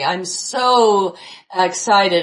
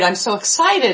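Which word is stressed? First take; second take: so; excited. First: The stress falls on the word so. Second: The stress falls on the word excited. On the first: The speaker calls it wrong. "we're obsessed with so" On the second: The speaker calls it right. "getting off of the so and the very to the words"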